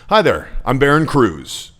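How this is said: The voice sounds friendly and falls at the end. The speaker calls it right. "Okay, it ends down"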